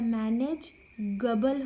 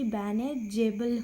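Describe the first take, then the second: First: The middle g is a hard g sound. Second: The middle g is a soft j sound. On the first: The word is spelled without the silent e. "ई नहीं लगेगा तब मैनेज गबल हो जाएगा" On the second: The word is spelled with the silent e. "ना कि मैनेजेबल होगा"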